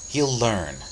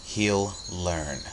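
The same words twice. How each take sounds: First: Said in the usual way. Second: Very firm. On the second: A narrator's reading. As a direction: say "He'll learn" firmly, without raising the voice. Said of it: "she said very firmly".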